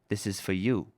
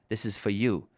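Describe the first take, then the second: No difference in how they are said.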